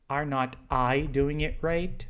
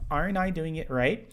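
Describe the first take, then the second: First: The word not is said in full. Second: The word not is contracted. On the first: The speaker calls it wrong. "você não pode fazer isso, porque estaria errado" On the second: The speaker calls it right. "Você pode dizer aren't I?"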